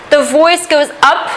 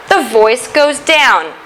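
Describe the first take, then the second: First: "up" lifted at the end; rising intonation. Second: "down" dropping at the end; falling intonation. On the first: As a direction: let the voice climb on "up". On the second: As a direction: let the voice sink on "down". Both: Shown as a demonstration.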